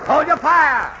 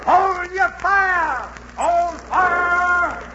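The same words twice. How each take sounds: First: Loud commanding shout; shouting orders. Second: Slow, stretched loud call; long drawn shout. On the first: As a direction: bark the order across the deck. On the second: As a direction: drag the order out across the water. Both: Acted. Captain ordering crew to cease.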